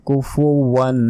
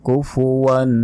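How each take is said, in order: The two takes are said the same way.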